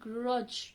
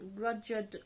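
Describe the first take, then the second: First: The word ends with only a j sound. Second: The word ends with a clear d sound. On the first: The speaker calls it right. "Just a j sound will come out" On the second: The speaker calls it wrong. "You didn't say the D word, grudged, grudged. Oh, doesn't sound right"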